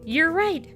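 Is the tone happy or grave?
happy. It is said in a happy tone.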